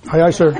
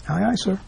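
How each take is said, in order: First: Loud, laughing "Aye, aye, sir" like an eager sailor; obedient servant. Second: Resigned servant. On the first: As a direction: bark it out with a laugh, mock salute. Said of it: "We just". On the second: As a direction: mumble the obedient reply, giving in. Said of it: "Even though we know it's not good for us". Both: Retold or imitated.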